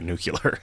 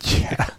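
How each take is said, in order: First: It is pronounced the way Texans would say it. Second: It is pronounced the usual non-Texan way. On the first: "given that it was in Texas, they would say nuclear" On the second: "instead of nuclear"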